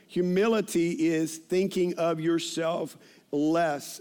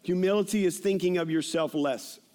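First: "Humility is thinking of yourself less" drawn out slowly; slow emphasis. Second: Said in the usual way. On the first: Shown as a demonstration. Preacher repeating a definition, "Humility is thinking of yourself less" slowly emphasised.

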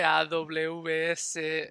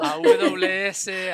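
First: "A W S" spelled slowly at normal volume; AWS another way. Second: "A W S" spelled out letter by letter, slowly and louder; AWS spelled out. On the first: Cohost giving another way to say AWS, slow spelling at normal level. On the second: Cohost showing how the three of them each say AWS, loud slow spelling. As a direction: spell out "A W S" slowly and loudly, one letter at a time. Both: Shown as a demonstration. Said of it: "ni nos ponemos de acuerdo en esto".

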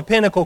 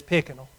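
First: Said in the usual way. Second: "Pickinal" with the middle sounds of Pinnacle swapped; "Pickinal" for Pinnacle, low and quiet; toddler's mispronunciation. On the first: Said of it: "their letters up". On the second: Retold or imitated. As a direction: say "Pickinal" softly, like a child mixing up letters. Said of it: "mixes their, their letters up".

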